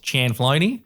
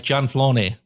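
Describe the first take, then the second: First: The name is said with an Australian accent. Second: The name is said with an Italian accent. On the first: "The Aussie way is" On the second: "or you can say it the Italian way"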